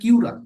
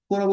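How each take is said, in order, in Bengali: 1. শব্দটি 'kyu' ধ্বনি দিয়ে শুরু হয়। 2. শব্দটি সাধারণ 'ko' ধ্বনি দিয়ে শুরু হয়।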